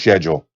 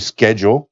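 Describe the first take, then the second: First: It is pronounced the English way, with 'sh'. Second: It is pronounced the American way, with 'sk'.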